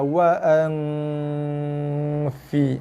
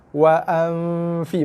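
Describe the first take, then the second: First: The nasal hum ends before the f sound starts. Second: The nasal hum runs straight into the f sound. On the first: The speaker calls it right. "Habis dengung baru jumpa" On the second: The speaker calls it wrong. "dengung berserta masuk ke dalam rumah fa"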